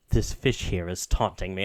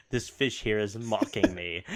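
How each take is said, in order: First: Lower, deadpan echo; low brooding god. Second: Low grumbling god. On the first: Hades echoing the player, low and deadpan. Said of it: "Hades just echoes". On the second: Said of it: "it's like". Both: Retold or imitated.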